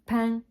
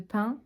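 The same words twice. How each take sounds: First: It is said with a southern French accent. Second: It is said with a standard French accent. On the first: "où ils disent pain" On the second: "au lieu de pain"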